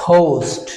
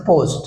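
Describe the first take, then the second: First: পোস্ট with puffed p and long ou; corrected pronunciation. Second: পোস্ট with plain p and short o; common mispronunciation. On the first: Teacher drilling পোস্ট for learners, aspirated and long. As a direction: stretch পোস্ট as phoust. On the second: Teacher quoting our usual পোস্ট, unaspirated p. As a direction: say পোস্ট without a puff. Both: Shown as a demonstration. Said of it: "আমরা বলছি পোস্ট".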